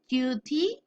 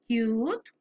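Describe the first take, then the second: First: An extra vowel sound follows the final consonant. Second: The word ends cleanly on its final consonant. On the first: The speaker calls it wrong. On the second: The speaker calls it right.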